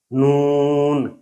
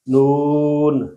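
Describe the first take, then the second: First: نون with the long oo through the nose; nasalized vowel. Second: Said in the usual way. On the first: Shown as a demonstration. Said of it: "اس میں ناک میں آواز جا رہی ہے". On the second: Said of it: "دوسری دفعہ جو میں نے نون".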